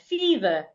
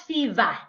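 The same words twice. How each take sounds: First: The final syllable has a weak schwa. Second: The final syllable has a full vowel. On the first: The speaker calls it right. "the E and R at the end of that word make the schwa sound" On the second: The speaker calls it wrong. "not fever"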